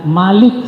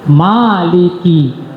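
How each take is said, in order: First: The first vowel is held for one beat. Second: The first vowel is held for two beats. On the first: This is the reading of a few scholars. "Malik satu harkat saja" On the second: This is the reading of most scholars. "jumhur ulama baconya dua harkat"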